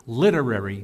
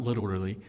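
First: Literary said as lit-er-ar-y, four clear syllables; corrected literary. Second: Literally said as lit-er-al-ly, quieter and lower; literally tossed off as the rejected word; the wrong word. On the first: Pastor correcting his slip to the congregation, careful literary. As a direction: stress the first syllable of literary, "ar" sounded out. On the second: Pastor setting aside his slip, softly saying literally. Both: Shown as a demonstration. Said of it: "not literally".

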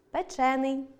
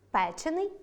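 First: Печений with stress on ЧЕ, single н; stress on second syllable. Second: Печений with stress on ПЕ, rising; stress on first syllable. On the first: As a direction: lean on ЧЕ in печений. (наголос на другому складі: печЕний) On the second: (наголос на першому складі: пЕчений) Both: Shown as a demonstration. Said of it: "подовження не відбувається в дієприкметниках".

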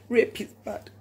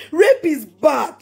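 First: Softer, a low final verdict; quiet. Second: Slow, deliberate, louder, every word hammered; slow down and drive each word home; emphatic. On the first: Closing her point to viewers, quietly firm. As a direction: drop the voice and let it settle. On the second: Emphatic repeated condemnation. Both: Real, not acted.

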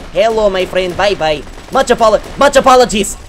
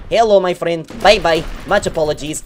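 First: Louder teasing hello, apologies rising higher; fake-polite send-off, hammed up more; mock polite farewell. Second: Teasing hello then a light bye-bye; sweetly fake-polite to his victim; mock polite farewell. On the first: Gamer repeating his fake-polite line to a victim, louder. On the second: Gamer fake-politely greeting the enemy he kills.

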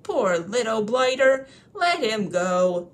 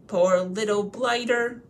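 First: Tipsy troll pity. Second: Slow, loud, sated troll; full, pitying troll. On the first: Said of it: "he had lots of beer". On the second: William, full of supper and beer, pitying Bilbo. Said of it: "as much supper as he could hold". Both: Acted.

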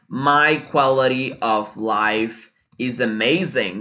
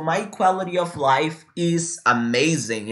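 First: Very slow, word by word; slow "My quality of life is amazing"; slow model sentence. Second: Slow, steady repeat for copying; slow "quality of life". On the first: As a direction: dictate it for learners. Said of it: "For example". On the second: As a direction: say it again for them to copy. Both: Shown as a demonstration.

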